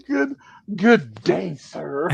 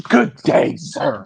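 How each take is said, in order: First: A slow, light take on Susie's huffy farewell; Susie impression. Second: Susie huff. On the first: Host redoing Susie's good day sir, slow and huffy. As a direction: drag out good day like a dismissal. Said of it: "pretend my beard is Susie's blonde hair". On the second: Retold or imitated. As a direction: snap the good day out like a dismissal. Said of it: "Peaches said".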